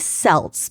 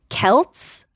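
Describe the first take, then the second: First: It is said like the team's name. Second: It is not said like the team's name.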